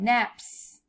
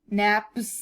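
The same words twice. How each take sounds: First: The final sound is a hissing s. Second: The final sound is a buzzing z. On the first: The speaker calls it right. "make it with the normal S sound" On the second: The speaker calls it wrong. "Would it sound good if it was naps?"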